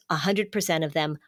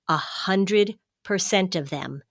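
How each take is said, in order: First: Said in the usual way. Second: A hundred percent of them, slower, stress on hundred; repeating the statistic to make it land; slow emphatic repeat. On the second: Real, not acted.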